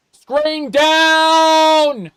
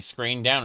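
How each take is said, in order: First: Screaming high and very loud; terrified shout. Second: Said in the usual way. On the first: Acted. Gamer yelling as blindness blacks out the screen, shout. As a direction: yell it out in mock panic.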